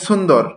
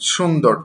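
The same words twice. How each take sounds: First: The s is made with the tongue against the teeth. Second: The s is made at the ridge behind the teeth. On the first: The speaker calls it wrong. "এই ছটাকে নিয়ে দাঁতের গোড়ায় যুক্ত করে দেয়, তখন হয়ে যায় কি" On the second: The speaker calls it right. "কিন্তু এমন হবে না, বরং দাঁতের গোড়া থেকে সুন্দর"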